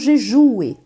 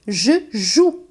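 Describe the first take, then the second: First: The word ends with an extra vowel sound. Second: The word ends with no extra vowel sound. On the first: The speaker calls it wrong. "e não je joue" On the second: The speaker calls it right. "se diz, né? Je joue"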